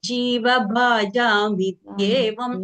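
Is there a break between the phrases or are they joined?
joined. The phrases are joined smoothly without a break. The speaker calls it right. "அதை சேர்த்து சொல்ல try பண்ணணும்"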